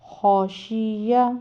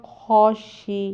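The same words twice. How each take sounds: First: خوشی یا slowly, ending in an open "ya"; full "kho-shi-ya" for خوشی یا; joined reading. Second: خوشی ending on a long "shee", no "ya"; pausal reading. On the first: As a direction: sound the final vowel of خوشی یا. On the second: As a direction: drop the last vowel, stretching the ee of خوشی. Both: Shown as a demonstration. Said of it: "یا کو ہم نے ساکن کر دیا".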